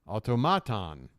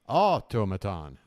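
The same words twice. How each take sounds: First: The stress is on the third syllable. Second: The stress is on the first syllable.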